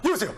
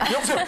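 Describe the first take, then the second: First: It is said in a lazy, offhand tone. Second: It is said in an overly polite, deferential tone. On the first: The caller is treated without much respect. "반대로 되게 어려운 분인데 누워가지고" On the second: The caller is treated with great respect. "너무 예의가 바른 형님"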